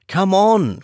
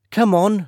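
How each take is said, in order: First: High, louder urgent call; urgent cry. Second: High, eager call, a touch louder; eager cry. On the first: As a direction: hurry her away from danger. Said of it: "cried John". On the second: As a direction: urge him along with excitement. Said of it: "she cried to him". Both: A narrator's reading.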